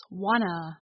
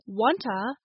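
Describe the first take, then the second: First: "wanna" with no t at all; t dropped. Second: "wanta" with the t still sounded before uh; t kept. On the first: Teacher showing fast-speech reduction, "wanna" without the t. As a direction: say "wanna", n straight into uh. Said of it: "drop off in fast speech". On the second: Teacher contrasting forms, "wanta" with its t sounded. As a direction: say "wanta" with a clear t and weak final vowel. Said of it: "so wanta becomes wanna". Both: Shown as a demonstration.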